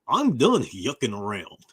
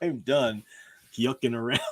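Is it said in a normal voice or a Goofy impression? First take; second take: Goofy impression; normal voice. First: It is said in a Goofy cartoon voice. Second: It is said in his normal voice.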